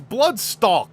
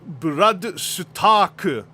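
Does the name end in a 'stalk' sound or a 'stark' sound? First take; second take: stalk; stark. First: The name ends with a 'stalk' sound. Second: The name ends with a 'stark' sound. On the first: The speaker calls it wrong. "a bunch of people go like, it's Bloodstalk, uh, they're wrong" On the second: The speaker calls it right. "his name is Bloodstark"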